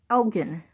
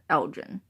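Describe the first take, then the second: First: The name is said the Scottish way. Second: The name is said the Illinois way. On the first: The speaker calls it right. "In Scotland, it's pronounced Elgin" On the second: The speaker calls it wrong. "In the town of Elgin in Illinois, they pronounce it Elgin"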